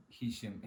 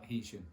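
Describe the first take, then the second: First: Heysham said "HAY-shum"; first syllable of Heysham like "hay"; Heysham as pronounced. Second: Heysham said "HEE-shum"; first syllable of Heysham like "he"; Heysham as spelled. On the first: Vlogger explaining a confusing place name, Heysham pronounced "Hay-sham". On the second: Vlogger explaining a confusing spelling, Heysham read as "Hee-sham". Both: Shown as a demonstration. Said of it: "but spelled Heysham".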